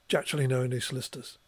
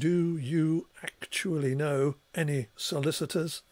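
First: Sounds are dropped, merged and reduced together. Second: Every sound is pronounced fully and carefully. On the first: This is what actually comes out of the mouth. "the physical" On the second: This is the form stored in the mind. "as a kind of mental representation"

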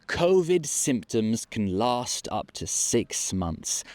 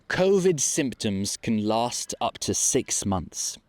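Both takes have the same delivery.

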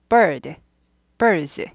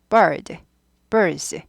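No difference in how they are said.

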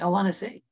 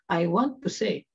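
First: The words 'want to' are reduced to 'wanna'. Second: The words 'want to' are said in full. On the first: This sounds casual. The speaker calls it right. "start using a lot of contractions" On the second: This sounds formal. The speaker calls it wrong. "instead of saying"

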